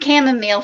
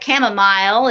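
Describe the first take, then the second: First: It uses an American pronunciation. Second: It uses a British pronunciation.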